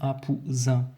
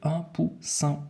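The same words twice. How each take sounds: First: The middle consonant is a buzzing z sound. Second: The middle consonant is a hissing s sound. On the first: The speaker calls it wrong. "Si maintenant je n'avais pas doublé mon S ici, j'aurais dû dire" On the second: The speaker calls it right. "je dois absolument le doubler dans ce cas-ci pour pouvoir dire un poussin"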